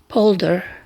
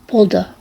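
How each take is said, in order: First: The word is said in an American accent. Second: The word is said in a British accent. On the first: "in U- U.S. Uh, pronunciation it's Polder" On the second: "In British pronunciation is Polder"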